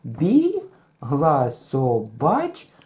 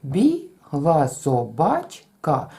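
First: Бігла собачка very slow, БІГ and ЧКА held long; long first, quick middle, long end; Бігла собачка sung out with long first and final syllables; rhythm demo. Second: Бігла собачка slow and even; Бігла собачка in five beats; counted syllables. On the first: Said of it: "промовляючи цю фразу". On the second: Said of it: "Рахуємо всі склади". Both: Shown as a demonstration.

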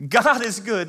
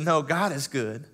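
First: High, loud proclamation; God is good, belted out; ringing affirmation to the room; preaching shout. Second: Said in the usual way. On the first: Acted. Preacher repeats, much bigger.

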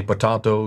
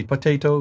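First: Potato with an "ah" in the middle; British pronunciation. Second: Potato with an "ay" in the middle; American pronunciation. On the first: Contrasting British with American speech, British pronunciation of potato. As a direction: say potato as "puh-TAH-toh". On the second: Contrasting British with American speech, American pronunciation of potato. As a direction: say potato as "puh-TAY-toh". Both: Shown as a demonstration.

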